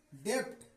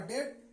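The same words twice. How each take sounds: First: "डेप्ट" with a p-like b sounded before t; as written. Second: "डेट" with e straight into t; silent b. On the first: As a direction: sound out every consonant of "डेप्ट". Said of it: "क्या लिखा है?". ("डेप्ट" जैसा लिखा, ब की आवाज़ के साथ) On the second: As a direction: leave the b out of "डेट". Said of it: "अब इसका उच्चारण होगा डेट". ("डेट" में ब silent) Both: Shown as a demonstration.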